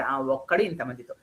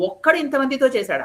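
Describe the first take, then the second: First: Said in the usual way. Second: ఒక్కడు asked higher and louder in disbelief; a king who cannot believe one man did this; ఒక్కడు hit high in shocked disbelief; astonished. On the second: A narrator's reading. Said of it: "ఆశ్చర్యపోయాడు రావణాసురుడు".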